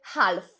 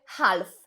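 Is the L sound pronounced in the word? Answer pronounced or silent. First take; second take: pronounced; pronounced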